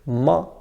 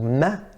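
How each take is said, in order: First: The syllable sounds heavy and thick. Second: The syllable sounds light and thin. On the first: The speaker calls it wrong. "ma is incorrect" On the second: The speaker calls it right. "ma is correct"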